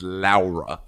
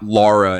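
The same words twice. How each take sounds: First: The first syllable sounds like 'lao'. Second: The first syllable sounds like 'law'. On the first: The speaker calls it right. "L A U is Lao" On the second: The speaker calls it wrong. "It is not Laura"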